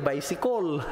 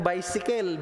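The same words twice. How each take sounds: First: Bicycle ending in a rounded "-kol"; Cebuano-accented "baysikol". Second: Bicycle said "bay-si-kel", open e in the last syllable; Cebuano-accented "baysikel". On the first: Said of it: "Ganyan ba?". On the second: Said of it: "Paano bigkasin yung salitang bicycle". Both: Shown as a demonstration.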